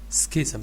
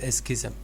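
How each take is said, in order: First: The word starts directly on the consonant cluster. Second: An extra vowel comes before the opening consonants. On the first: The speaker calls it right. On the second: The speaker calls it wrong.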